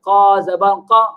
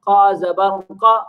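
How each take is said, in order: No difference in how they are said.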